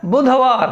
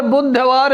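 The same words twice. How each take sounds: First: बुधवार with single dh, budha-vār; correct pronunciation. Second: बुधवार with doubled d, buddh-vār; common wrong form. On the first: Teacher answering with the right word, correct pronunciation. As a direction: keep one light dh in बुधवार. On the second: Teacher quoting what people say, common wrong form. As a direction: hold a double ddh in बुधवार. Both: Shown as a demonstration. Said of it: "शुद्ध शब्द क्या है?".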